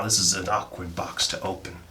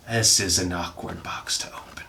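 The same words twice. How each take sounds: First: Said in the usual way. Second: Whispered under the breath. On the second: Shown as a demonstration. Opening a box, whispers to the camera. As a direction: hush it right into the mic. Whispered repeat of same line.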